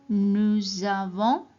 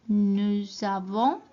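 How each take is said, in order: The two takes are said the same way.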